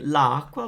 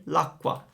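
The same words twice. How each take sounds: First: "la acqua" with both a vowels sounded; vowels kept apart. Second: "l'acqua" run together as one word; a single a after the l in "l'acqua"; elided vowel. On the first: Teacher showing learners the unelided form, vowels kept apart in "la acqua". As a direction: say "la acqua" as two separate words. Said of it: "instead of saying la acqua". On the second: Teacher showing what Italians say instead, elided "l'acqua" as one word. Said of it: "we just say l'acqua". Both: Shown as a demonstration.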